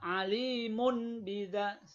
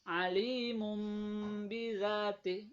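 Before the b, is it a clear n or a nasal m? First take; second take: clear n; nasal m. First: The n is pronounced clearly before b. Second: The n becomes a nasal m before b. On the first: The speaker calls it wrong. "nggak boleh begitu. Tidak boleh jelas ya" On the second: The speaker calls it right. "harus ba-nya seperti menjadi huruf mim"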